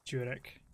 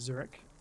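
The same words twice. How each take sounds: First: It begins with a J sound. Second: It begins with a plain English Z sound. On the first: "More like a J" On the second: "probably butchered it, anglicized it way too much"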